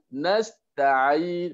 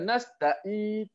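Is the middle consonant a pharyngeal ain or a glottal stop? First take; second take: pharyngeal ain; glottal stop. First: The middle consonant is a longer throaty ain. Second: The middle consonant is a sharp glottal stop. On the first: The speaker calls it right. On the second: The speaker calls it wrong.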